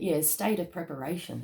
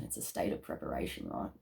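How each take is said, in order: First: Said in the usual way. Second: "It's a state of preparation" in a hushed whisper. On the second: Shown as a demonstration. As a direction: breathe "It's a state of preparation" softly, as a secret. Repeats phrase as a whisper.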